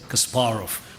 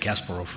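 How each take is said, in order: First: The name is said with Russian pronunciation. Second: The name is said with American pronunciation. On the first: "which is a Russian pronunciation" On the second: "Americans always say Kasparov"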